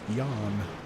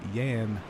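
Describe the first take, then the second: First: The name begins with a J sound. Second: The name begins with a Y sound. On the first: The speaker calls it wrong. "not Jan" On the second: The speaker calls it right. "confirming it is Yan"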